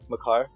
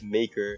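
First: The name ends with a full 'car' sound. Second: The name ends with a weak 'ker' sound. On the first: This is the name as he himself says it. "I think that's how you pronounce his real name" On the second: This is the name as most fans say it. "I'll say, like, you guys"

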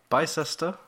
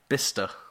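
First: The name is said with three syllables. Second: The name is said with two syllables. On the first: The speaker calls it wrong. "That is what I've been saying for years. Okay. That is wrong" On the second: The speaker calls it right. "How do you say it? Bister"

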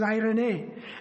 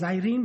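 First: It is said with the Greek pronunciation. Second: It is said like the English name Irene. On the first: The speaker calls it right. "the proper pronunciation, I believe, is irene" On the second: The speaker calls it wrong. "I like to pronounce it as Irene"

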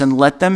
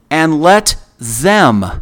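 First: The word 'them' is said without special emphasis. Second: The word 'them' is said with strong emphasis.

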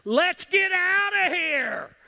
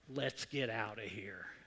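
First: It is shouted urgently with high energy. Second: It is said calmly at normal volume.

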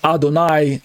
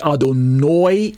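First: The last syllable ends in an 'eye' sound. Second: The last syllable ends in an 'oy' sound. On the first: "instead of saying Adonai" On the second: "Almost sounds like Adonoi, N-O-Y"

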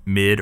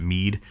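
First: The vowel is short, as in 'mid'. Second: The vowel is long, as in 'mead'.

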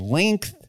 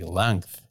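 First: The vowel sounds like the vowel in ink. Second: The vowel sounds like the vowel in wrench. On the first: The speaker calls it right. "I don't say length" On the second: The speaker calls it wrong. "I say length"

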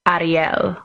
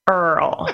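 First: The name is said in a Spanish style. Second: The name is said in a Kentucky style. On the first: "they pronounce it Ariel" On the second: "in Kentucky, where they pronounce it Earl"

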